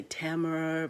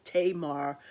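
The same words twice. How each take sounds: First: Tamar said like "TAM-er"; short first a in Tamar, as in "tam", weak "-er" ending; alternative pronunciation. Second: Tamar said like "TAY-mar"; long a in Tamar's first syllable, full "mar" ending; corrected pronunciation. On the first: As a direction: say Tamar as "TAMM-ur". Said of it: "some people might say Tamar". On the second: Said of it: "pronounced Tamar". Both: Shown as a demonstration.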